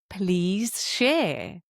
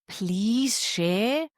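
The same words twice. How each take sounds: First: It sounds calm and matter-of-fact, not pleading. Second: It sounds pleading and desperate, like begging. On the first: The request simply stands. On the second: The speaker is desperate for help.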